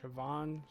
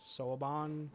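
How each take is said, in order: First: The name is said the way it was heard. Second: The name is read out the way it looks. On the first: The speaker calls it right. "is that how you pronounce it?" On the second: The speaker calls it wrong. "I was reading it like Soaban. Whoopsies"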